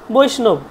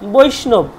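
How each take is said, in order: Both takes have the same delivery.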